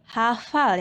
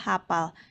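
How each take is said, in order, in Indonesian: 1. Konsonan di tengah itu bunyi f. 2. Konsonan di tengah itu bunyi p. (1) "yang benar" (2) "yang salah"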